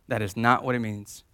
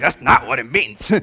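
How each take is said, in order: First: It is said plainly, without attitude. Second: It is said with a sassy attitude.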